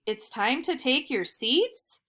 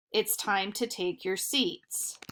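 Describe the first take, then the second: First: "It's time to take your seats" ending on a rising question tune; mock question rise. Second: Said in the usual way. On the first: Shown as a demonstration. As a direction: say "seats" with a questioning upturn, as if asking. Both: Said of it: "He didn't ask that as a question".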